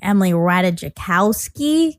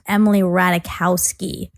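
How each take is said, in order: First: The J in the surname is sounded. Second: The J in the surname is silent. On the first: The speaker calls it wrong. "I was also mispronouncing Emily because I was saying Emily Ratajkowski" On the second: The speaker calls it right. "it's actually pronounced Emily Ratajkowski. The J is silent"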